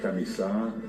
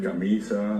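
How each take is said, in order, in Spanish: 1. El acento está en la última sílaba. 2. El acento está en la penúltima sílaba. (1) "Yo digo en guaraní" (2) "el castellano pues marca el acento llano"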